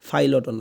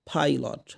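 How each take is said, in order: First: It starts with an f sound. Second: It starts with a breathy p sound. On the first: The speaker calls it wrong. "ফাইলটও না" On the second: The speaker calls it right. "প ফর মাঝখানে ফ ফ"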